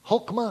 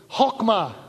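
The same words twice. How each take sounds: First: "Chokmah" with a throaty h, stress on the first syllable; "Chokmah", rasp the ch in the back of the throat; Hebrew chokmah. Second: "Chokmah" with the ch hawked from the back of the throat; throaty Hebrew chokmah. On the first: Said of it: "not saying that exactly right". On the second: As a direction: rasp out "Chokmah" the proper Hebrew way. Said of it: "We'll say chokmah together". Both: Shown as a demonstration.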